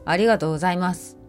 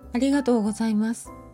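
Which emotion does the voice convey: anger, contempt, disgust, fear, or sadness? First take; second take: anger; sadness. First: The voice sounds angry. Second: The voice sounds sad. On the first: "怒り、" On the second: "悲しみ、"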